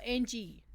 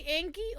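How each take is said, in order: First: "Angie" said with a soft g, as AN-jee; soft g pronunciation. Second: "Angie" said with a hard g, as ANG-ghee; hard g pronunciation. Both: Shown as a demonstration. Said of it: "Do you say Angie or Angie?".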